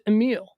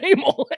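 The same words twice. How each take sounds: First: The name is said in a lyrical Italian way. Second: The name is said so it resembles 'anal'. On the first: The speaker calls it right. "Just pronounce it Emil. And I think that's prettier" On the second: The speaker calls it wrong. "Emil sounds like anal"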